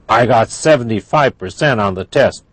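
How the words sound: It is said in an angry tone. "That's angry"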